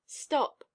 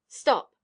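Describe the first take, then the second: First: Higher, short command; narrator's raised-pitch order; command to halt. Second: Loud husky halt; narrator's husky-voiced woman. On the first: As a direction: call a halt to her. Master halts woman with a command. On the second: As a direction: call out huskily to stop him. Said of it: "she said in her husky voice". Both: A narrator's reading.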